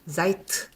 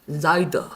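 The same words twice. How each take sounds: First: The word ends with a voiceless t sound. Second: The word ends with a voiced d sound. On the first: The speaker calls it right. "드가 아니고 트가 됩니다" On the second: The speaker calls it wrong. "이게 안 되거든요"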